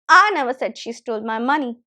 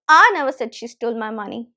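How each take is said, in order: First: The word "I" carries the main stress. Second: The same.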